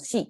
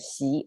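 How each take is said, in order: First: The pitch on the syllable does not rise. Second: The pitch on the syllable rises. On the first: The speaker calls it wrong. "That's that's how people say here" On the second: The speaker calls it right. "it's a rising tone"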